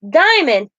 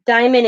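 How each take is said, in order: First: Texan take on the name. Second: Said in the usual way. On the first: Retold or imitated. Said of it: "as in".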